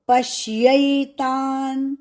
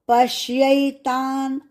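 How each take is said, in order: Both takes have the same delivery.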